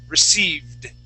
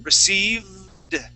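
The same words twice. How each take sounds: First: The V sound is kept short. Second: The V sound is held for a long time. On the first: "Let's shorten it up" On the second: "hold on to that V for just a little bit longer"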